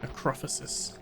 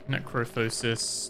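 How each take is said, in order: First: The third syllable has a 'fih' sound. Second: The third syllable has a 'foe' sound. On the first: The speaker calls it right. "I've been saying it wrong this whole time" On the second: The speaker calls it wrong. "So I thought it was necrophosis"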